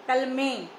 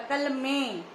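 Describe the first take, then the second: Both takes have the same delivery.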